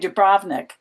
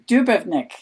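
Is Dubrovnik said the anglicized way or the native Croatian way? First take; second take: anglicized; native Croatian. First: The name is said the anglicized way. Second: The name is said the native Croatian way. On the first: The speaker calls it wrong. "people say Dubrovnik" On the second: The speaker calls it right. "They say Dubrovnik"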